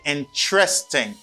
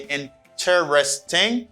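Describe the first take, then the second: First: It is said with three syllables, in-tres-ting. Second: It is said with four syllables, in-ter-es-ting. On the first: The speaker calls it right. "You say interesting" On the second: The speaker calls it wrong. "You do not say interesting"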